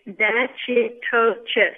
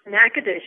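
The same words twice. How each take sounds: First: Natchitoches slowly as NATCH-ee-TOE-chess; spelling pronunciation. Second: Natchitoches said NACK-uh-dish; correct local pronunciation. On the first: Tour guide showing how it looks, spelled-out pronunciation. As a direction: sound out Natchitoches syllable by syllable as written. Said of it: "When you look at it". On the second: Tour guide setting host straight, correct local pronunciation. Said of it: "The name of our city is pronounced". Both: Shown as a demonstration.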